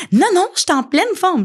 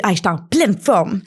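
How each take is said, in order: First: Much higher, stubborn insistence; insistent denial. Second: Breezy fake cheer, a touch put on; mock denial. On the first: Pretend. Sick person insisting she's fine, higher insistent denial. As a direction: protest too much that you're fine. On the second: Sick person pretending to be fine, mock cheerful. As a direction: brush it off as if nothing's wrong. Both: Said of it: "Ça, c'est du déni".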